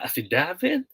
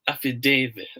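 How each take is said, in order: First: Affidavit as af-fi-DAV-it, rising like a question; short A in affidavit. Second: Affidavit as af-fi-DAY-vit, falling; long A in affidavit. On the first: Teacher polling viewers, affidavit with short-A DAV. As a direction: lift af-fi-DAV-it as first option. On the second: Teacher polling viewers, affidavit with long-A DAY. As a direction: land af-fi-DAY-vit as second option. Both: Shown as a demonstration. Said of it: "Ano ba?".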